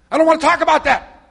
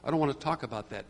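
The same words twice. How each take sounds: First: Much higher, very loud mock yell; imitated angry outburst. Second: Said in the usual way. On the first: Stressed woman cutting off the caller, imitated angry shout. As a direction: yell it as her abrupt refusal. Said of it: "Just like that".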